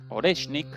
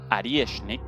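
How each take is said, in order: First: It is read with a plain Spanish pronunciation. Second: It is said with a Russian pronunciation.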